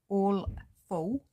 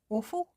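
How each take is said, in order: First: The two words are said clearly and separately. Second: The words blur together and sound like 'awful'. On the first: The speaker calls it right. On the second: The speaker calls it wrong.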